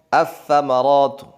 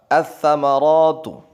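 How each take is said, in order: First: The L merges into a doubled following consonant. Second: The same.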